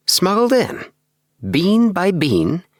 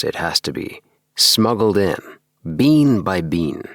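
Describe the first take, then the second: First: High, wondering echo of smuggled in, bean by bean; little man echoing in awe, higher; amazed repeat. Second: Said in the usual way. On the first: Acted. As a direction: marvel at the words as you repeat them. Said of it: "repeated Appleby".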